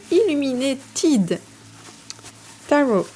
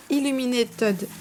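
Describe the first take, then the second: First: Slow, higher French-accented English; bad English accent. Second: French-accented English, higher pitched; bad English accent. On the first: Vlogger retrying an English deck name, slow French-accented English. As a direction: sound out Illuminated slowly with a thick French accent. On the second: Vlogger attempting an English deck name, bad French-accented English. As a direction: stumble over Illuminated with a French accent. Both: Real, not acted. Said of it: "j'ai vraiment un accent anglais de merde".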